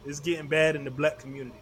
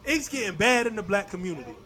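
First: It is read flatly, without added emphasis. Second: It is read with strong, dramatic emphasis.

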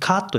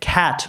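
First: The vowel is a plain Japanese ka sound. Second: The vowel is a wide English-like a sound. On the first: The speaker calls it wrong. "カットじゃなくて" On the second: The speaker calls it right. "さっきのアの音なんですね"

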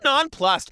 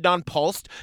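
First: The second syllable sounds like 'plus'. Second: The second syllable sounds like 'pulse'. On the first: The speaker calls it right. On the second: The speaker calls it wrong.

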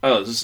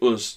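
First: The vowel sounds more like an 'a'. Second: The vowel sounds like a short 'u'. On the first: "People down south say us. ... as if they're pronouncing the U as an A" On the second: "And people up north say us"

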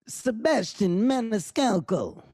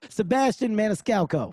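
First: The name is said with an Italian accent. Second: The name is said in a plain accent. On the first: "That was my Italian accent" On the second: "I'll say it regular"

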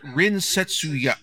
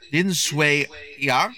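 First: The name is said with a Japanese reading. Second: The name is said with a Chinese reading. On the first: This is the name the voice actors use. "in Japanese it's pronounced" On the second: This is the name shown in the subtitles. "his name is written, I'm going to try to pronounce this correctly"

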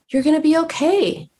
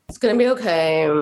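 First: It is said in a warm, kind tone. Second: It is said in a harsh, unkind tone.

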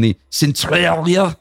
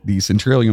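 First: It is read in a fake French accent. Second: It is read in a plain accent.

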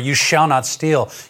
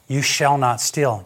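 First: It is said as a stern, forbidding command. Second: It is said as a gentle, freeing reassurance. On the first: Stealing is forbidden. "And the commandments were" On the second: There is no longer any need to steal. "it's all in the tone"

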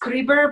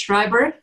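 First: The name is pronounced the Italian way. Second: The name is pronounced the German way. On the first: "in Italy, it's Schreiber" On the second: "In Germany and Switzerland, it's Schreiber"

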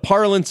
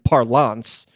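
First: The word is said in a plain, ordinary way. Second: The word is said in a showy, fancy way. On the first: The speaker calls it right. "I don't mind parlance" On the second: The speaker calls it wrong. "guss it up and do"

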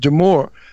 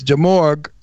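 First: The name is said the French way, ending softly. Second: The name is said the English way, ending in 'g'. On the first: "it was French, pronounced Demore" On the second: "but in English, it was Demorgue"

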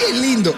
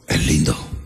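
First: It is said in a soft, effeminate put-on voice. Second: It is said in a firm, deep, masculine voice. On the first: The speaker seems openly smitten with the man. The speaker calls it wrong. "A tú dices, ay, es lindo. Ahí está pajarate ya" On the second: The speaker simply acknowledges the man looks good. The speaker calls it right. "A tú le dices ahora, tú pregúntame"

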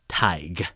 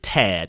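First: The name rhymes with big. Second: The name rhymes with bad. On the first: The speaker calls it right. "It's actually pronounced Tig" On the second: The speaker calls it wrong. "I pronounced it Tad because I'm a dumb American"

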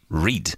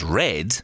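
First: The word is said with a long 'ee' vowel. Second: The word is said with a short 'e' vowel. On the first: The action is in the present. The speaker calls it wrong. "is always read" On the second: The action is in the past. The speaker calls it right. "It never reads it as read"

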